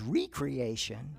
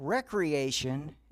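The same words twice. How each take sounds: First: The word begins with "ree", as in redo. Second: The word begins with "reck", as in wreck. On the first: Creating something anew. "as recreation" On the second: Leisure and play. "seeing recreation"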